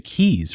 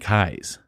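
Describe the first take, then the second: First: The vowel sounds like 'ee'. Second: The vowel sounds like 'eye'. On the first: The speaker calls it wrong. "a lot of people would, would say keys" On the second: The speaker calls it right. "the actual person's last name would have been Kai's, like Cobra Kai"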